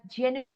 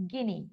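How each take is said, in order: First: "genuine" with a j sound at the start; soft g. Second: "guinea" with a hard g at the start, low. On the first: Teacher explaining how the G is pronounced, soft-g demonstration. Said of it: "The G is pronounced as". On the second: Teacher showing which G it is not, low hard-g example. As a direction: show the wrong g with "guinea". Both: Shown as a demonstration.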